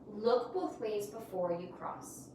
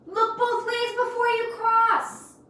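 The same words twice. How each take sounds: First: It is said in a plain, flat way. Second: It is said in an excited, energetic way.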